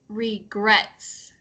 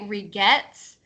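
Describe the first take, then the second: First: The R sound is clear and fully pronounced. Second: The R sound is weak and hard to hear. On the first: The speaker calls it right. "It's regrets" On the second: The speaker calls it wrong. "your R we can't hear it as much"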